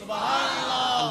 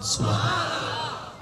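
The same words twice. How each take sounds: First: It is said more loudly. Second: It is said at normal loudness.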